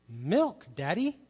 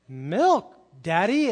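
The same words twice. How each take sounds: First: A light, simple little-girl request, barely voiced; lightly voiced toddler asking Daddy for milk. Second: Put-on louder, insistent toddler demand, rising at the end; an indignant little girl insisting on milk, louder. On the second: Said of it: "She looks a little indignant".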